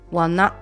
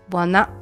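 Both takes have the same delivery.

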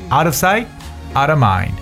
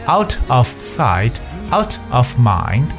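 First: Fast, with the words linked together. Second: Slow and clear, each word said separately. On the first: The speaker calls it right. "没有这么慢这么清楚" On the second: The speaker calls it wrong. "你千万不要把它说成out of sight out of mind"

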